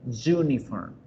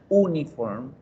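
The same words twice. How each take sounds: First: The word begins with a 'y' sound. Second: The word begins with a plain vowel sound. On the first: The speaker calls it right. "sino uniform" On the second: The speaker calls it wrong. "la palabra uniforme no suena uniform"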